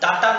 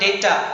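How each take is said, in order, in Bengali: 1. প্রথম স্বরধ্বনিটি 'ah' এর মতো শোনাচ্ছে। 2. প্রথম স্বরধ্বনিটি 'ay' এর মতো শোনাচ্ছে। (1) "ডাটা নয়" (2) "এটার উচ্চারণ ডেটা"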